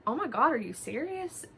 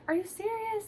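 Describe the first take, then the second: First: Taken aback. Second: "serious" thrown up very high, near tears; retold mom starting to cry in disbelief; mock tearful "Are you serious?" pitched way up. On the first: Retold or imitated. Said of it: "kinda taken back". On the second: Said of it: "just started crying".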